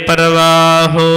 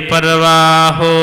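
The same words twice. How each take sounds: Both takes have the same delivery.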